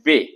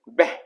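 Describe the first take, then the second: First: The word ends on a plain open vowel. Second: The word ends with a breathy h sound. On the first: It is used as a preposition meaning 'to'. "उसे तब हम कहते हैं वे यानी टू की सेंस में" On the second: It is used as an adjective meaning 'good'. "जब इसे हम एज ए एडजेक्टिव प्रयोग करेंगे तो इसे हम उच्चारण करेंगे बह"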